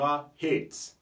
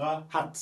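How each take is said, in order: First: "hate" drawn out slowly with an "ey" vowel; English A sound. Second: "hat" with a short open French "a"; French-style A. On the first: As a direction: model "hate" with the English letter-name A. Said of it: "la voyelle prend automatiquement son son en anglais". (« hate » lentement, avec le son « é » anglais) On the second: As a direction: model "hat" with a French A and sounded T. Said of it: "on prononce comme si on avait un mot en français". (« hat » avec un a à la française) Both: Shown as a demonstration.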